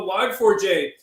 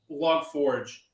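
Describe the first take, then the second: First: The name ends with the separate sounds 'four jay'. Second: The name ends with the single word 'forge'.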